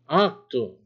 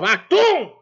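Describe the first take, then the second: First: It is said in a calm, plain tone. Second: It is said in an angry tone.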